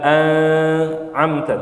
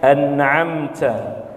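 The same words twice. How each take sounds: First: The n is blurred into the next sound. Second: The n is pronounced clearly and distinctly. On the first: The speaker calls it wrong. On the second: The speaker calls it right. "tapi jelas"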